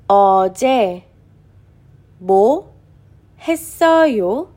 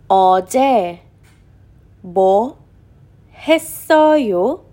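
The two takes are said the same way.

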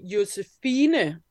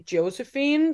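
First: The name is pronounced with Danish sounds. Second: The name is pronounced with English sounds. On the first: "in Danish, I would say Josefine" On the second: "in English, I would probably say Josephine"

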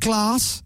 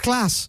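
First: The vowel is long, like "glahss". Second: The vowel is short, like "gl-a-ss". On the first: The speaker calls it wrong. "It's not glass" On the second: The speaker calls it right. "It's glass"

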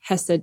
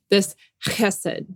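First: It starts with a plain English-style h sound. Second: It starts with a rough throaty guttural sound. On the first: The speaker calls it wrong. "the more Americanized English chesed" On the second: The speaker calls it right. "this is this guttural word"

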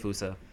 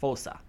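First: The first syllable does not sound like 'foe'. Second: The first syllable sounds like 'foe'. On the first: This is how the film says it. "I say Fusa" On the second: This is how a search engine says it. "The way Google pronounces it is Fosa. Like foe, And then sa"

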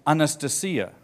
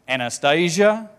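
First: The name is said in a Russian way. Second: The name is said in an English way. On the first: The speaker calls it right. "It's a very beautiful Russian name" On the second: The speaker calls it wrong. "But we say Anastasia. We mess it all up"

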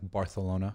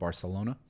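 First: The 'c' is said with a lisping 'th' sound. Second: The 'c' is said with a plain 's' sound. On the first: This is the regional lisped way. "why they pronounce things like Barcelona" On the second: This is the way without a lisp. "instead of Barcelona"

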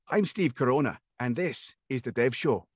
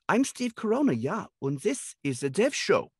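First: It is said in a Scottish accent. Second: It is said in a German accent.

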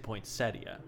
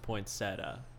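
First: The word ends in an 'ee-ah' sound. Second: The word ends in a plain 'tah' sound. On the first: "I always say poinsettia, just because that sounds pretty to me" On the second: "everyone else says it's poinsettia, because there is no I in that word"

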